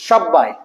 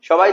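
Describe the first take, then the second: First: The middle consonant is doubled with force. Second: The middle consonant is short and plain.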